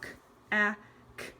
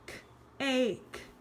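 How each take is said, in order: First: The word is sounded out with a short vowel. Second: The word is sounded out with a long vowel. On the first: The speaker calls it wrong. "I would sound it out uh, using the short vowel sound" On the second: The speaker calls it right. "go back and say the long vowel sound"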